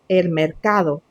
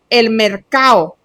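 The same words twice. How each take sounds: First: The d in mercado is clearly pronounced. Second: The d in mercado is dropped. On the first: The speaker calls it right. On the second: The speaker calls it wrong.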